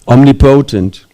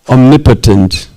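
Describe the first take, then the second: First: The end part sounds like the word 'potent'. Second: The middle part does not sound like 'potent'. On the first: The speaker calls it right. "Prabhupada pronounced it omnipotent. That is correct" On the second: The speaker calls it wrong. "Doesn't make sense"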